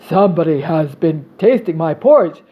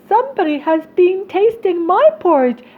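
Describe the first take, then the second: First: It is said in a big voice. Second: It is said in a small voice. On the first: "said the great big bear in his great big voice" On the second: "cried the little wee bear in his little wee voice"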